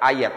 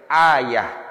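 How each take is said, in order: First: The word ends with a t sound. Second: The word ends with an h sound. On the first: The speaker calls it wrong. "Harusnya bukan ayah, ayat" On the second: The speaker calls it right. "Kalau dia berhenti maka dibacanya ha"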